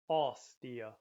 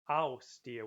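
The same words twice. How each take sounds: First: The vowel in aus is a flatter 'aw' sound. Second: The vowel in aus is a clear 'ow' sound. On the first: This is how many places say it. "a lot of places it's just pronounced aw" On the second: This is how some places say it. "with a bit more of the ow sound"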